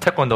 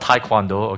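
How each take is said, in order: First: The word is said with a Korean pronunciation. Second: The word is said with an English pronunciation. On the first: The speaker calls it right. "it's Taekwondo" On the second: The speaker calls it wrong. "it's not Taekwondo"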